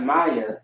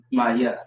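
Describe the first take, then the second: First: "Maya" run together as English MY-uh; wrong pronunciation. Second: "Maya" as two parts, ma and ya; correct Hebrew pronunciation. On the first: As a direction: say "Maya" as one familiar English name, MY-uh. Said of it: "Not Maya, but Maya". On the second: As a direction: say "Maya" as ma-YA, with a clear ya. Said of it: "the ma ... And the ya". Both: Shown as a demonstration.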